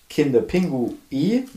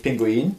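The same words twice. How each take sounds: First: "Kinder-Pingui" said slowly, ending on a clear "i" with no final n; correct pronunciation. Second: "Pinguin" said like the bird, with a final "in"; "Pinguin" as the common mistaken name with an n at the end; wrong pronunciation. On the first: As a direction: stretch out "Kinder-Pingui" slowly and stress that it ends in "i". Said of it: "nicht Pinguin, ganz wichtig". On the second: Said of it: "ganz wichtig". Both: Shown as a demonstration.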